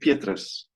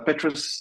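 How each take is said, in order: First: It is said with an Afrikaans pronunciation. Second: It is said the English way, like Tetris. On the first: "In Afrikaans, it would be Petrus" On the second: "like Tetris almost, is a completely fine pronunciation"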